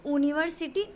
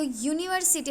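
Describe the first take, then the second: First: यूनिवर्सिटी said as "oo-niversity"; no Y sound. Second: यूनिवर्सिटी opening with a Y glide; Y sound. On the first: Teacher showing the wrong reading, यूनिवर्सिटी opening on plain oo. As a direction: drop the Y glide from यूनिवर्सिटी, starting on oo. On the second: Teacher showing why it takes A, यूनिवर्सिटी starting on Y. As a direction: say यूनिवर्सिटी as "you-niversity". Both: Shown as a demonstration. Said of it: "वाई की तरह sound कर रहा है".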